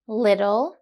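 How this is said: The middle t is a soft d-like flap. "Listen to these words again in the American accent"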